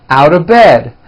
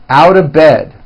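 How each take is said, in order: No difference in how they are said.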